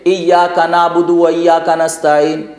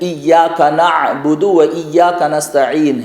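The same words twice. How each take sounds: First: The consonant is a plain glottal stop. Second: The consonant is a deep throaty ain. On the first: The speaker calls it wrong. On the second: The speaker calls it right.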